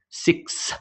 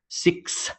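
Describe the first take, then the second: First: The word ends with a clear s sound. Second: The word ends with a clear s sound.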